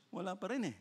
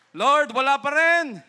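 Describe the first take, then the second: First: Softly voiced, matter-of-fact answer; understated reply. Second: High, very loud call; crying out to God. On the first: God answers Abraham that none are found, quiet reply. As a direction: let the refusal drop quietly. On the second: Acted. Abraham tells the Lord none are found, loud high cry. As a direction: shout it up to heaven.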